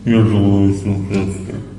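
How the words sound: It is said in a gloomy mood.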